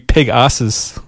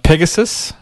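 First: The name is said as 'peg asses'. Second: The name is said normally, ending in 'gus'.

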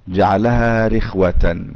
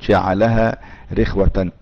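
No difference in how they are said.

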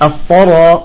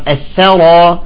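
First: The 'th' sound is heavy and emphatic. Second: The 'th' sound is light and thin. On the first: The speaker calls it wrong. "بعضهم يقول الثرى" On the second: The speaker calls it right. "نرقق الثاء"

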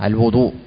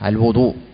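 First: The vowel after the w is a 'u'. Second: The same.

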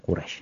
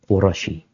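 First: The name ends on the consonant, with no vowel. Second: The name ends with an added "ee" vowel. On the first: The written form has no final i. "Kalau enggak ada i-nya dibaca Quraisy" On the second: The written form has a final i. "Kalau ada i-nya seperti Quraisy baru dibaca Quraisy"

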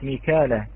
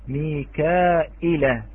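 First: The word has no glottal stop in the middle. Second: The word has a glottal stop in the middle. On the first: This is the usual reading of the word. "كلمة ميكالة" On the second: This is how the Warsh reading renders the word. "قرأها ورش ميكائلة"

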